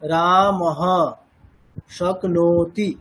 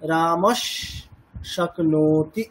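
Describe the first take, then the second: First: A pause separates the first word from the second. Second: The words run together, with an s sound between them. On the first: The sound change between the two words does not apply. "রামঃ এটাকে আলাদা উচ্চারণ করি, মানে এটা বলে থেমে গেলাম" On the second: The sound change between the two words applies. "প্রোনাউন্সিয়েশনটা কেমন হবে? রামস শক্নোতি, এরকম।"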